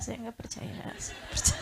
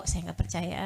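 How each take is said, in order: First: Soft whisper to oneself; wife's silent inner whisper. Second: Said in the usual way. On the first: Shown as a demonstration. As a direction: say it only in your heart. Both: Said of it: "dalam hati ya".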